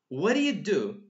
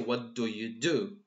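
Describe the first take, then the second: First: The words are squeezed and linked together. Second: Each word is said separately and clearly. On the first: The speaker calls it right. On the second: The speaker calls it wrong.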